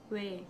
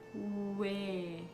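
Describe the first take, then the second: First: The vowel is said at normal speed. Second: The vowel is drawn out slowly. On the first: "Wenn man normal spricht" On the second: "Wenn man langsam spricht"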